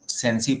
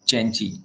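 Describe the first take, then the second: First: The word begins with an s sound. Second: The word begins with a ch sound. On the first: The speaker calls it wrong. "हम लोग सेंसी पढ़ लेते हैं" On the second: The speaker calls it right. "But it is pronounced as चेंची"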